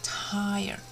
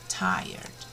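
First: Said in the usual way. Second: "Tired" whispered low and worn out. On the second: Shown as a demonstration. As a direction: let "Tired" sink into an exhausted whisper. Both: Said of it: "we have tired".

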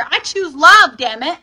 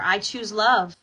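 First: Loud, high, forceful affirmation; angry. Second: Said in the usual way. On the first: Shown as a demonstration. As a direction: belt it out like you're angry. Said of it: "say it like you're angry". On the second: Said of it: "say it like you mean it".

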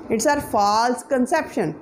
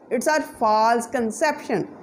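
Both takes have the same delivery.

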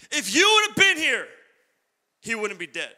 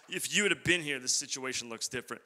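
First: Anguished cry. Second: Soft, falling lament; fading lament. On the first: Sisters crying out to Jesus, loud and anguished. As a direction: cry it out in grief. Preacher voicing the sisters' lament. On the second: Sisters lament trailing off softly. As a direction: let the grief sink to a hush. Same line repeated, fading down. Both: Retold or imitated.

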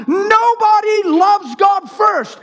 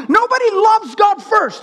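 First: NOBODY drawn out high, every word weighted; slow emphatic repeat. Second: High-pitched, emphatic declaration; fervent preaching. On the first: Preacher getting this straight for the church, slow emphatic repeat. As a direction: hammer "Nobody loves God first" slowly and high. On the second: Preacher stating whom nobody loves first, fervent preaching. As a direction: declare it high and forcefully, at normal pace. First take of repeated doctrine. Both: Acted.

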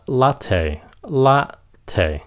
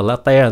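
First: "latte" slowly, light la, aspirated tay; correct latte. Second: "latte" said la-teh, unaspirated t; mispronounced latte. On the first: Teacher correcting the drink name, slow la-thay. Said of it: "nó là la nhẹ thôi". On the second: Teacher showing the mistake, latte as la-teh. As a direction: flatten "latte" to Vietnamese la-te. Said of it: "Cái chữ này không phải là latte". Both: Shown as a demonstration.

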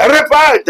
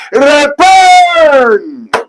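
First: Preaching call. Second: Preaching shout. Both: Real, not acted. Prophet preaching against corruption.

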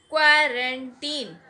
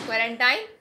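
First: Put-on "क्वारंटीन" very slow and louder, the ending a long "teen"; careful teacher demo of "क्वारंटीन"; correct pronunciation. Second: "क्वारंटाइन" with the ending "-tine" rhyming with "time"; "क्वारंटाइन" demoed as the mistake; common wrong pronunciation. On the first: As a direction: stretch out "क्वारंटीन", landing on a long "ee". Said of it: "सही word क्वारंटाइन नहीं है". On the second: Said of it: "तो लोग टाइन ही बोल रहे होंगे". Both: Shown as a demonstration.

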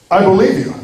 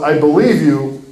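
First: Lightly voiced easygoing judge, slightly lifted pitch; a touch of kindly, credulous acceptance; lenient judge. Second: Believe them, but hold firm; regretful firm judge. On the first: Judge believing the apologetic murderer, mildly lenient. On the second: Acted. Judge answering the defendant's plea, soberly firm.

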